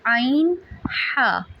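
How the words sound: The throat sounds are relaxed and said gently. The speaker calls it right. "इसे हमने नहायत नरमी से अदा करना है"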